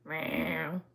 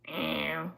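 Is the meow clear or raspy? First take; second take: raspy; raspy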